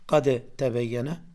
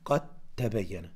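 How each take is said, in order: First: The d is pronounced separately before the t. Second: The d is assimilated into the following t. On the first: The speaker calls it wrong. "Du sagst nicht Qad tabayyana" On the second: The speaker calls it right. "dann macht man hier Assimilation"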